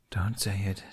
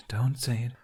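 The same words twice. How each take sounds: First: Urgent whisper to himself. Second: Said in the usual way. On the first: A narrator's reading. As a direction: whisper it under your breath. Jack holds back a joke.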